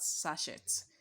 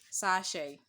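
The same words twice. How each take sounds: First: The final t sound is pronounced. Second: The final t sound is silent. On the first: The speaker calls it wrong. "not sachet" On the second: The speaker calls it right. "That letter T you see there would not be pronounced"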